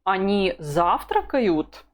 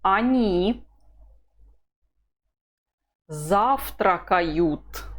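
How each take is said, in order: First: Завтракают stressed as the question, slowly; slow drill question, weight on завтракают; question tune. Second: Они завтракают said slowly, falling at the end; a calm falling statement, said slowly; slow statement tune. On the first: Teacher models the question, stressing завтракают. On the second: Teacher reading a drill line slowly, falling tune. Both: Shown as a demonstration. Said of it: "The intonation is".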